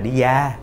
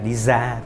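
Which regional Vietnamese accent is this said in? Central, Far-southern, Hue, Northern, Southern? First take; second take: Southern; Northern. First: It is said in a Southern Vietnamese accent. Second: It is said in a Northern Vietnamese accent. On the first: "đi vào miền Nam thì có khi là đi ra" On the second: "ngoài Bắc như cô gọi là đi ra"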